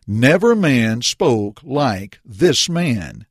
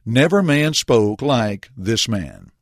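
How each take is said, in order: First: NEVER leaned on, each word drawn out slowly; Never man spoke like this man, slowly, stress on Never; slow emphatic quote. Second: Never stressed, the line spoken slowly and deliberately; Never man spoke like this man, slow and measured; slow theme statement. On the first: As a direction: weigh every word, starting on Never. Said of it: "Please notice what the officers confessed". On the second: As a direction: announce the lesson's text, hitting Never. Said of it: "will serve as the basis for our lesson". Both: Shown as a demonstration.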